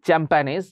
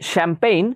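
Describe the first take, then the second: First: The word begins with a 'ch' sound. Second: The word begins with an 'sh' sound. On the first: The speaker calls it wrong. "এটা কেউ আবার উচ্চারণ করবে না চ্যাম্পানেজ" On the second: The speaker calls it right. "শ্যাম্পেইন এটা French word"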